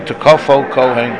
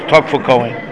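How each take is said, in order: First: The first word is said as tekofo. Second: The first word is said as tokfo. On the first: It is the grammatically correct form. The speaker calls it right. "if you want to pronounce it correctly" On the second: It is the customary traditional form. The speaker calls it wrong. "You have to say it wrong"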